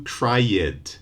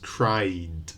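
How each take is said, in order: First: Cried mispronounced as two syllables, CRY-ed; cried said wrongly as cry-ed; wrong extra vowel. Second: Cried as a single falling syllable, cryd; just a d after the vowel in cried; cried with no extra vowel; one syllable. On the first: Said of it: "we don't do cried, just cried". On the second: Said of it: "just cried". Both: Shown as a demonstration.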